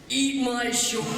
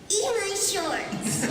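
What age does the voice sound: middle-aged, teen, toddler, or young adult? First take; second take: middle-aged; toddler. First: It sounds like a middle-aged man. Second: It sounds like a very young toddler. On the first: "a forty-year-old Bart" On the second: "two-year-old Bart saying"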